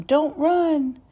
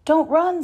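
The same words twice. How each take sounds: First: Higher, louder plea to stop; yelling. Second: Higher, louder plea to stop; calling out. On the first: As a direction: chase them while calling out. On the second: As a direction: call after the fleeing ducks. Croc calls after fleeing ducks. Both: A narrator's reading.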